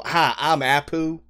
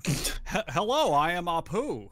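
First: Put-on slow, plain American-accented greeting; Apu with American accent. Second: Slow, higher imitation of an Indian accent; Apu's Indian accent. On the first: Apu suddenly given an American voice, slow American accent. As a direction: say it like a bland all-American guy. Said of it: "have an American voice". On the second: Friend answering with Apu's original voice, mock Indian accent. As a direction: lightly mimic the original cartoon voice. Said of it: "Apu's voice".

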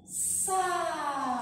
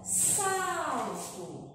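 First: "salto" drawn out syllable by syllable; separando sílabas. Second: Said in the usual way. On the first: Shown as a demonstration. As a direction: stretch "salto" into sal, then to, with a gap. ("salto" dito devagar, sílaba por sílaba) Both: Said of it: "vamos ter que separar as sílabas".

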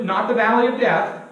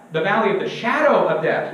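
First: "valley" leaned on, then falling away; "not the valley of death" as a firm correction, weight on "valley"; stress on valley. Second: "shadow" punched as the missing word; "shadow" stands out, the rest falls away; stress on shadow. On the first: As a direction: set up the wrong reading, leaning on "valley". Corrects a misreading by contrast. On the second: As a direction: hit "shadow" to correct the phrase. Contrasts the corrected wording. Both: Shown as a demonstration.

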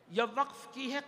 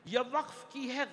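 No difference in how they are said.

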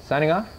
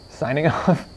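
First: Said in the usual way. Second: "Signing off" slower with a laugh. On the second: Real, not acted. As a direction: chuckle through "Signing off".

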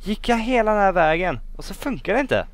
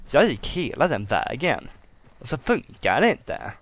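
First: High-pitched, indignant protest; incredulous outcry. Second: Emphatic grumbling. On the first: Player walked all that way for nothing, high incredulous complaint. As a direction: start loud and high, stay high to the end. Machine fails after long trek. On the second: Player restates the wasted trek, grumbling emphatically. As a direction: grumble it out, leaning on each stressed word. Repeats complaint, now wearier. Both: Real, not acted.

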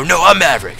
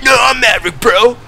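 First: A hint of a movie hero insisting; Maverick line. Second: Higher, louder mock-heroic insistence; Maverick line. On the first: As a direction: say it like a Top Gun hero. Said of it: "you're supposed to go". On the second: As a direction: push the movie-hero line over the top. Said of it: "And I'm like".

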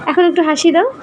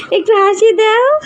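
First: Said in the usual way. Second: Higher, slower, whiny begging for a smile; high pleading coax. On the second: Acted. Father begging his little one for a smile, whiny and high. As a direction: plead sweetly like a pouting child.

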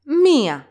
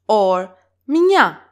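First: MIA in two syllables, mi-a, accent on the i; higher, stressed i in "mia", then a separate a; "mia" with the i and a pronounced separately. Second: MIA squeezed into one syllable, mya, loud; "mia" with i and a pronounced together. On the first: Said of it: "separately from alpha". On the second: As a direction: glide "mia" straight into the a. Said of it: "can be pronounced two different ways". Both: Shown as a demonstration.

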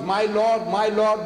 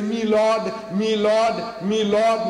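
First: Said in the usual way. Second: "me lord" in a louder, higher English address to a judge; English courtroom accent. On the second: Retold or imitated. Englishman addressing the magistrate, mock English "me lord". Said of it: "The Englishman is talking about the magistrate".

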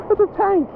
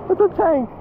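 Both takes have the same delivery.

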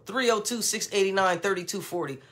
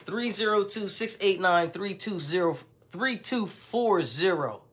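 First: Said in the usual way. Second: Deliberate number readout, last "Three two four zero" drawn out; digit by digit. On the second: Shown as a demonstration. Vlogger repeating the phone number for the slow people, deliberate digit by digit. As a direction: spell out each digit, "zero" in full, slowing right down at the end. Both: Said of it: "Gotta say it like that".

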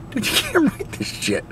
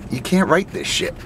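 First: High, laughing disbelief. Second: Said in the usual way. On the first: Real, not acted. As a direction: laugh through the words. Laughing repeat of the line.

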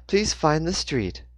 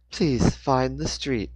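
First: Slow, higher robotic monotone; monotonous GPS voice. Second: Slow, higher eerie machine voice; a navigation voice, drawn out; eerie GPS voice. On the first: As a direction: read it like an annoying navigation box. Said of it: "in her annoyingly monotonous tone". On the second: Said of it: "the voice said in an eerie". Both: A narrator's reading.

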